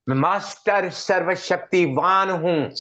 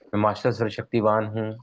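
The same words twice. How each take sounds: First: It is said with strong emotional feeling. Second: It is said plainly, without emotional charge. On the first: The words are felt and believed. "अगर आप ऐसे बोलोगे ना, feeling generate होगी" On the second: The words are only recited. "अभी मैं बोल रहा हूं"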